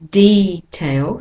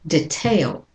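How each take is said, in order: First: The stress is on the first syllable. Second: The stress is on the second syllable. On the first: "So the first syllable has the most stress" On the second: "And the American is detail"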